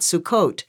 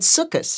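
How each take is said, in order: First: It is said in the Sephardic pronunciation. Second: It is said in the Ashkenazi pronunciation. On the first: This is the pronunciation used in most congregations today. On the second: This is the pronunciation the speaker grew up with. "She said"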